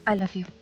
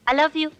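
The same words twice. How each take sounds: First: It is said warmly, with heartfelt romantic feeling. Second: It is said plainly, without romantic feeling. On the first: It sounds like a lover's confession. The speaker calls it right. "थोड़ा और प्यार से, थोड़ा और दिल से बोल देना।" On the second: It sounds like a mother talking to her son. The speaker calls it wrong. "तुम तो ऐसे बोल रही जैसे माँ अपने बेटे को बोल रही है।"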